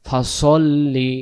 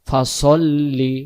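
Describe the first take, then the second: Both takes have the same delivery.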